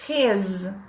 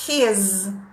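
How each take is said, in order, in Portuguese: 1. A palavra termina com som de z. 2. A palavra termina com som de z.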